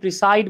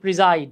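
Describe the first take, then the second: First: The middle consonant is a hissing s sound. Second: The middle consonant is a buzzing z sound. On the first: The speaker calls it wrong. "আমরা অনেকে এটাকে প্রিসাইড বলি" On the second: The speaker calls it right. "উচ্চারণ হচ্ছে প্রিজাইড"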